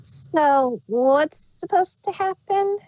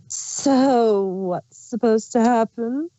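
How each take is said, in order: First: Higher, slow puzzled voice that is not Chrysalis; wrong character voice. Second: Slow, sly changeling queen asking innocently; Chrysalis voice. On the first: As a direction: ask it in the wrong figure's high tone. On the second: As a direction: feign puzzlement as the changeling queen. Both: Acted. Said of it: "oh, that's Chrysalis's voice".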